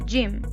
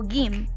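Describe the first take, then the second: First: The word begins with a J sound. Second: The word begins with a hard G sound. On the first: The speaker calls it right. "vamos a decir" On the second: The speaker calls it wrong. "no vamos a decir"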